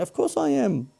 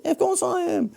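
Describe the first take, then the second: First: High swoop on "course", then falling off at the end; Seinfeld inflection. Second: "course" pitched even higher, swooping and falling; Seinfeld inflection. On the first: Host answering his own question Seinfeld-style, high swooping "course". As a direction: ask and answer your own question like a sitcom comic. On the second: Host repeating the line, hamming up Seinfeld's swooping "course". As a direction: lean into the sitcom comic's sing-song. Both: Acted. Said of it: "I did the inflection like Seinfeld then".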